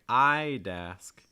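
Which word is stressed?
I'd. The stress falls on the first word. "If you want to stress the I, it would sound more like"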